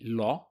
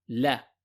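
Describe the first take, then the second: First: The L is pronounced heavy, with a thick sound. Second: The L is pronounced light, with a thin sound. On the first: The speaker calls it wrong. "don't say it heavy. So don't say la, that's wrong" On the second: The speaker calls it right. "This is a light letter. The correct pronunciation is"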